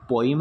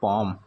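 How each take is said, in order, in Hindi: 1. यह शब्द 'po-im' जैसा सुनाई देता है। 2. यह शब्द 'pom' जैसा सुनाई देता है। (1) "स्टूडेंट इसको पोइम नहीं बोलते हैं" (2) "इसको बोलते हैं पोम"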